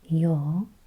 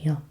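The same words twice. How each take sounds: First: The o vowel is held long. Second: The o vowel is short. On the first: The speaker calls it right. "here we have the little line above the O, so that's yo" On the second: The speaker calls it wrong. "not yo"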